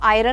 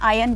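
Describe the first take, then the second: First: The word is said with an r sound. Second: The word is said without an r sound. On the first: The speaker calls it wrong. "इसको आयरन नहीं बोलेंगे" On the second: The speaker calls it right. "आयन बोलेंगे"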